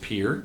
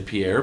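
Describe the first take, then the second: First: It is said like the English word peer. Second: It is said like the French name. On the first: This is the accepted local pronunciation. The speaker calls it right. "but it's pronounced Pierre" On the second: This is a common outsider pronunciation. The speaker calls it wrong. "Sometimes people say Pierre"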